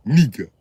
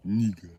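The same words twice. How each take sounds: First: Holding back anger. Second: Calm. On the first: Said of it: "sound like you holding back anger". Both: Acted.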